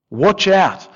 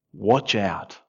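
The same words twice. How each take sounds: First: Said in the usual way. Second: Quiet warning. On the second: Acted. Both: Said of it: "he says in verse fifteen".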